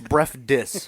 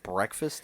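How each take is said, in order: First: The word is clipped to sound like bref dis. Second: The word is said with all its sounds. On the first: "Bref dis is how she says it" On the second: "She doesn't say breakfast"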